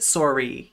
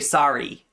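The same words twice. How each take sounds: First: Sorry is said with a Canadian accent. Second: Sorry is said with an American accent. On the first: "In Canada, they will pronounce it sorry" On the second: "in English as opposed to Canadian, we say sorry"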